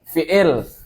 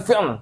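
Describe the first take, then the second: First: A vowel is inserted between the final consonants. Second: The final consonants are said together without a vowel.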